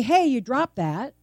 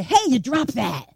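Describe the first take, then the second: First: Said in the usual way. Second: Rough, accusing "Hey, you dropped that"; mock-confrontational delivery; harsh inflection. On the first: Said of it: "It's how we say it". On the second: Shown as a demonstration. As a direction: say it harshly, as a demonstration. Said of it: "how voice inflection can matter".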